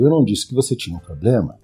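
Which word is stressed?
disse. The word "disse" is stressed.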